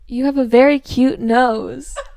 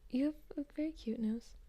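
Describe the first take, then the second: First: It is said at a louder volume. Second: It is said at a softer volume.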